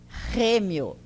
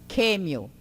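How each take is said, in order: First: It starts with a strong guttural throat sound. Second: It starts with a plain k sound. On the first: "é mais forte, é gutural... é aqui na garganta" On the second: "Atualmente está se substituindo pelo K"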